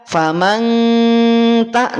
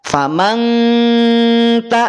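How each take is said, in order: No difference in how they are said.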